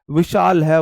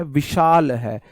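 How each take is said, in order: First: विशाल है said louder with a firm falling end; teacher hammering विशाल है into memory; firm louder repeat. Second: विशाल है said slowly, each syllable stretched; drawn-out विशाल है for memorising; slow teaching repeat. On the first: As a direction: drive विशाल है home, louder. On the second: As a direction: stretch out विशाल है for the class to copy. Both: Shown as a demonstration.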